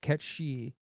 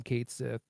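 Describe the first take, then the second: First: The name is said as one word, Japanese-style. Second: The name is said as two words, English-style. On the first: This is the original Japanese name. "the Japanese pronunciation is" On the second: This is the name chosen for the localization. "we're just going to call him"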